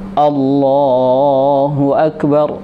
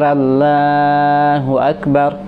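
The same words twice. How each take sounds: First: The lips are rounded, giving an O sound. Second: The L in Allah is said thin and light. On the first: "bibirnya yang dibulatkan, o" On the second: "kalimat Allahnya ini ditipiskan"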